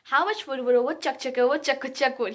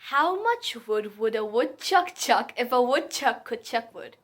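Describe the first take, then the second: First: It is said faster. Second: It is said slowly.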